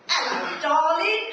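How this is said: It sounds cheeky and playful.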